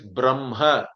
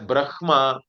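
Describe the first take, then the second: First: The m sound comes before the h sound. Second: The h sound comes before the m sound. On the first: The speaker calls it right. "it is Brahma" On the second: The speaker calls it wrong. "you should not read it as Brahma"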